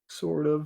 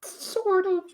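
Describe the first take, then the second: First: Said in the usual way. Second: Very high squeaky voice. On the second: Pretend. Repeats phrase, squeaky then normal.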